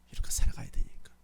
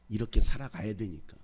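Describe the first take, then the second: First: Breathy whispered repeat of the line. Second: Said in the usual way. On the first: Shown as a demonstration. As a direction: say it again in a hush to the congregation. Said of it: "same line repeated". (속삭이듯 다시) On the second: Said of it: "repeated as a whisper".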